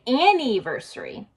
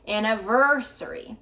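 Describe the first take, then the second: First: The main stress is not on 'ver'. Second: The main stress falls on 'ver'. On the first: The speaker calls it wrong. "I hear some of my students say anniversary" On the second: The speaker calls it right. "the stress is on the ver. So we're going to go higher, louder, and longer"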